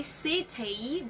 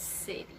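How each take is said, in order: First: CITY drawn out with a hard t; exaggerated strong T. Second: CITY with t like a d; soft flapped T. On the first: Teacher warning students off it, slow strong-T CITY. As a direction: stretch CITY into "sit-tee". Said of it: "Do not say city". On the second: Teacher giving the correct form, flapped-T CITY. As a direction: relax CITY into "siddy". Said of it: "but it's city". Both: Shown as a demonstration.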